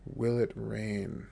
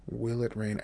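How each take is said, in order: First: Slow, every word drawn out; slow model phrase. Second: Said in the usual way. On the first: Shown as a demonstration. Teacher modelling "Will it rain?" slowly for listeners. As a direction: spell it out slowly for learners. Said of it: "teacher models phrase slowly". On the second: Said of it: "teacher repeats at normal pace".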